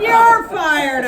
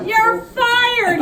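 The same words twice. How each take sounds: First: High, loud roar back; roaring return; thundered back. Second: Very high, loud roar; booming fury; thundered. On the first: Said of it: "I thundered back". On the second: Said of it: "he thundered". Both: Acted.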